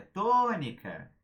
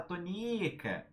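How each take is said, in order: First: "tônica" with a loud, long TÔ; correct stress. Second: "tônica" with a long, high stressed NI; wrong stress. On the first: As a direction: hit and stretch the first syllable of "tônica". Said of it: "Não, porque é tônica". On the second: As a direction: say "tônica" as to-NÍ-ca, dragging the middle syllable. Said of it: "você não vai falar". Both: Shown as a demonstration.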